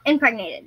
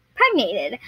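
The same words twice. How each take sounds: First: Said in the usual way. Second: Impregnated said as "pregnated", dropping the first syllable; mispronounced. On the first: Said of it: "I said impregnated". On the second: Real, not acted. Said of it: "I said impregnated, but I was like "Pregnated".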